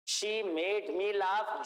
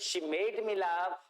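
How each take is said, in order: First: The words are said separately, one by one. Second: The words are joined together in one flow.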